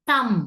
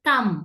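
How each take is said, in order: The two takes are said the same way.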